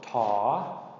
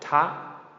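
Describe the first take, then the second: First: The pitch rises on a long vowel. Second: The pitch is high on a short vowel. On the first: "a long rising tone" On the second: "short high tone"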